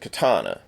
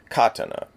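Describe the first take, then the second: First: The syllables are stressed in an English way. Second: The syllables are stressed in a Japanese way.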